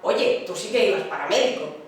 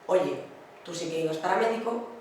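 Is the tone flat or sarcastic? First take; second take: sarcastic; flat. First: It is said in a mocking, sarcastic tone. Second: It is said in a flat, neutral tone. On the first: The words mean the opposite, as irony. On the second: The words are meant literally.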